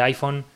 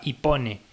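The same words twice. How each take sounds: First: "iPhone" said the English way, "ai-fon". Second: "iPhone" read letter by letter the Spanish way, "i-po-ne". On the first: Podcaster giving the correct English "iPhone". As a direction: say "iPhone" as "aifon", English style. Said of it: "en vez de". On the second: Podcaster mocking a bad tech host, spelt-out "iPhone". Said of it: "no mola mucho". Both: Shown as a demonstration.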